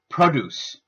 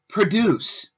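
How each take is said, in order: First: The stress is on the first syllable. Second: The stress is on the second syllable. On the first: It is used as a noun. "The noun has the stress on the first syllable" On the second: It is used as a verb. "The verb form has the stress on the second half of the word"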